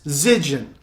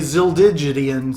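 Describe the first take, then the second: First: The name rhymes with pigeon. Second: The name does not rhyme with pigeon. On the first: The speaker calls it right. "like it rhymes with pigeon" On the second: The speaker calls it wrong. "I was going to really mess that up and say Zildigian"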